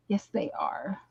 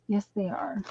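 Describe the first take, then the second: First: Said in the usual way. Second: Breathy whisper, no voice at all. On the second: Real, not acted. To herself after reading a card, in a whisper. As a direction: whisper it to yourself, private and soft.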